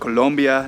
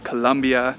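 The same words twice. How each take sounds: First: The second syllable has an 'oh' vowel. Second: The second syllable has an 'uh' vowel. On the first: The speaker calls it right. "it's pronounced Colombia" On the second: The speaker calls it wrong. "not Colombia"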